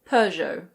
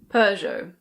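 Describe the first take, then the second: Both takes have the same delivery.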